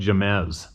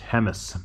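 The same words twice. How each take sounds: First: "Jemez" said as juh-MEZ, with an English J; spelling pronunciation. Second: "Jemez" said as HEM-iss, with an H sound; J as H in "Jemez", stress up front; local pronunciation. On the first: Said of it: "it's spelled Jemez, but it's pronounced". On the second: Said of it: "but it's pronounced Jemez". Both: Shown as a demonstration.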